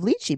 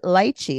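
First: It is said with the usual mainland pronunciation. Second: It is said with a Hawaiian pronunciation. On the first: "instead of lychee" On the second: "she pronounces it lychee ... because she's from Hawaii"

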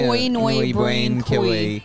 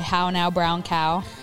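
First: It is said in an imitated Irish accent. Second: It is said in a plain, non-Irish accent. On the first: "They say" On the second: "if you tell an Irish person to say"

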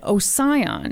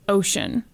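First: The name does not sound like 'ocean'. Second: The name sounds just like 'ocean'. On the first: This follows the spelling of the name. The speaker calls it wrong. "I was pronouncing it in my head Ossian this whole time" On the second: This is how most people online say the name. The speaker calls it right. "most of them were basically ocean"

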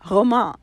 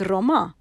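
First: It is said with a French accent. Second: It is said with an English accent.

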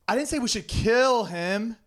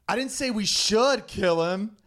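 First: The stress is on the word 'kill'. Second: The stress is on the word 'should'.

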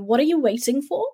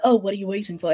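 First: It is asked sincerely and earnestly. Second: It is asked dismissively and offhandedly.

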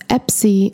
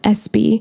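First: The p sound comes before the s sound. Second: The s sound comes before the p sound. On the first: The speaker calls it wrong. "I pronounce it incorrectly as Epsy" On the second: The speaker calls it right. "and not Espy"

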